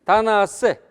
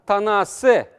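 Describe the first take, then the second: Both takes have the same delivery.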